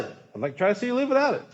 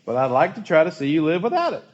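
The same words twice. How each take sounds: First: Higher and fast, lyric rushed out as it dawns; struck repeat. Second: Said in the usual way. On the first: Retold or imitated. Pastor repeats the song line, suddenly struck by it, quick and higher. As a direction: repeat it quickly as the meaning hits you.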